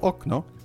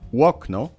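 First: The word begins directly with a vowel. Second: The word begins with a w-like glide. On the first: This is the standard Polish way of saying it. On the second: This is the Poznań dialect way of saying it.

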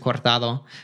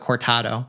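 First: The word is said with a Spanish accent. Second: The word is said with an American accent. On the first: "in Spain is a cortado" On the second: "with an American accent"

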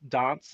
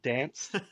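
First: It is said with an Adelaide vowel. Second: It is said with a Sydney vowel.

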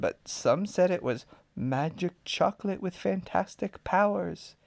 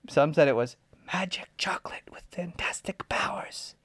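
First: The words are spoken in full voice. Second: The words are spoken in a whisper. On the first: The speaker calls it wrong. "Oh, sorry" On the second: The speaker calls it right. "And they always whispered when they said it"

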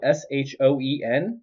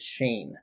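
First: The vowel sounds like the one in 'bone'. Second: The vowel sounds like the one in 'lane'. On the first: The speaker calls it wrong. "it's spelled Shoen" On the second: The speaker calls it right. "but you say it Shane"

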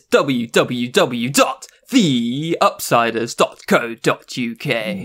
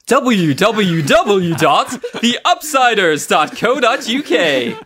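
First: It is said in his normal voice. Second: It is said in a put-on voice.

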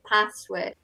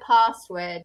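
First: It is said in a regional, non-posh British accent. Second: It is said in a posh, refined British accent. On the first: "from my area, I would say a password" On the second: "password would sound very posh"

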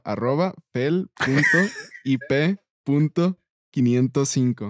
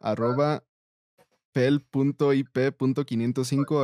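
First: It is said slowly. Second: It is said at normal speed.

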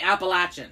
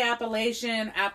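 First: The word is said the way locals say it. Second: The word is said the common outsider way. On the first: This is how people from the region say it. The speaker calls it right. "the Appalachian people say Appalachian" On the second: This is an accepted but non-local way to say it. The speaker calls it wrong. "you could say Appalachian"

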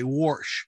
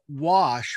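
First: It is said in Pittsburghese, with an r. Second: It is said in a standard accent.

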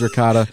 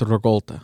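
First: It is said with a common American pronunciation. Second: It is said with an Italian-style pronunciation. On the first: This is how most people say it. "Everybody says ricotta" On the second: This is how Italians say it. "but Italians, it's ricotta"

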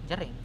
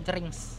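First: The name ends on the ng sound. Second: The name ends with a ks sound. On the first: The speaker calls it right. "Dan nggak pakai X bacanya" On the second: The speaker calls it wrong. "yang salah tuh nyebutnya juga jerings. Karena ada X kan di namanya"

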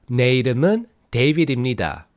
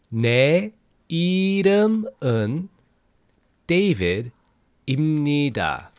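First: It is said fast. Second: It is said slowly.

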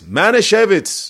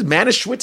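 First: The middle consonant is pronounced as a V. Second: The middle consonant is pronounced as a W. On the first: The speaker calls it right. "but there's no V in there" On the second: The speaker calls it wrong. "I would say, because I could pronounce it"

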